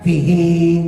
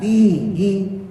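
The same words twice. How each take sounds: First: The first vowel is said short. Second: The first vowel is said long. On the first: The speaker calls it wrong. "dibacanya fihi, padahal fi-nya panjang" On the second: The speaker calls it right. "Harusnya kan fihi"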